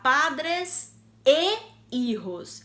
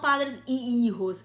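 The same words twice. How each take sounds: First: The linking word is said as 'e'. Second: The linking word is said as 'i'. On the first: The speaker calls it right. "eu vou falar padres e hijos" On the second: The speaker calls it wrong. "e não padres e hijos"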